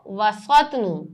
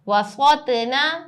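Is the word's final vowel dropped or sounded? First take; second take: dropped; sounded. First: The word stops with the final vowel dropped. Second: The word ends with its full final vowel.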